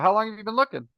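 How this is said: It has a brisk, non-questioning tune. "That's not a question tonality. That's a like get up and go"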